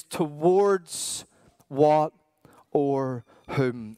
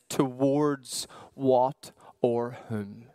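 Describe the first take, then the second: First: Towards, what, or whom, each set apart, or whom whispered; broken by pauses. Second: Towards what or whom, drawn out slowly; slow, searching question. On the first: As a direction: pause between each word, whisper the end. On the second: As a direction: let the question hang slowly. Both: Shown as a demonstration.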